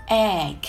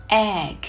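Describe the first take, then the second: No difference in how they are said.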